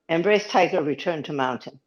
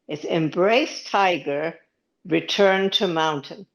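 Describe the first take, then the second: First: It is said at normal speed. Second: It is said slowly.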